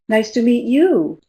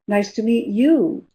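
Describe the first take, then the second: No difference in how they are said.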